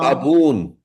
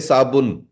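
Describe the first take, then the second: First: The second syllable has a long vowel. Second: The second syllable has a short vowel. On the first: This is the Farsi pronunciation. "how she's saying it in Farsi is sabun" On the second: This is the Hindi, Urdu and Punjabi pronunciation. "in Hindi uh, and and Urdu and even in Punjabi, Uncle, we say sabun, the the short vowel, short vowel"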